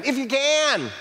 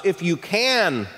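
First: High, exclaimed echo dropping at the end; thrown-back retort. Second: Said in the usual way. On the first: Retold or imitated. Jesus throwing the father's statement back at him, high challenging retort. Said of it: "Jesus responds by throwing the statement back at him". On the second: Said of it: "responds to his request".

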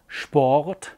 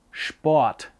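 First: Said in the usual way. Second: Sport with the Sch sound, like Schport; regional Sport. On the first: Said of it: "It's not Sport". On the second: Shown as a demonstration. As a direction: say Sport as Schport, local style. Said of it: "it's Sport".

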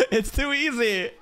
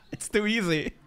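First: Laughing. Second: Said in the usual way. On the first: Real, not acted. Laughing at the anime scene.

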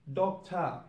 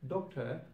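First: "doctor" said as "doctah"; ah ending. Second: "doctor" ending in an -er. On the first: Teacher showing learners Cockney British, "doctor" ending in ah. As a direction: end "doctor" on an open ah. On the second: Teacher giving the normal English form, "doctor" ending on R. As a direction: finish "doctor" on the R. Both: Shown as a demonstration. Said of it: "sound of R will turn into a sound".

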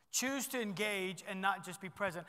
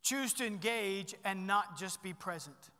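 First: Said in the usual way. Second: Slow, deliberate "Choose to engage and not just be present"; weight every word of the point; dictating the second key slowly; slow emphatic key point. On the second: Shown as a demonstration. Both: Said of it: "Number two is this".

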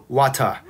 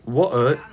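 First: Kiwi "water" with an open "ah" ending; New Zealand accent. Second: British accent. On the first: Streamer correcting chat on how Kiwis say it, New Zealand accent. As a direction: say it as "wah-tah", like a Kiwi. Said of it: "Kiwis say water". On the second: Streamer setting it against the Kiwi version, British accent. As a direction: say "water" the British way. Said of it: "water is the Kiwis". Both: Shown as a demonstration.

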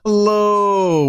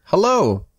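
First: A much higher, louder, drawn-out whining hello; long nasal whine. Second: Put-on a drawn-out, pitched-up little-girl hello; a shy child tugging for attention; long whining hello. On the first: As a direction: reach out with the O like a tug at the pants. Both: A narrator's reading. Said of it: "It's a long, nasal, and softly whining".

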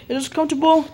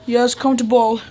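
First: COMFORTABLE asked as a question, a little raised. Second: COMFORTABLE stated as a settled answer; confirming. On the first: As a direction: query the word COMFORTABLE as if checking. Questioning the other's answer. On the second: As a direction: confirm COMFORTABLE without questioning. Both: Pretend.

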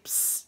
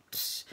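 First: A hushed hiss to catch someone's eye; psst whisper. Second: A barely there hiss, even softer; fainter psst whisper. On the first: Man hissing to get a woman's attention, whispered psst. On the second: She shows how faint the trucker's psst call is, whisper. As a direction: breathe out a tiny psst. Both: Retold or imitated.

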